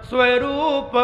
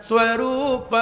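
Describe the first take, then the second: The two takes are said the same way.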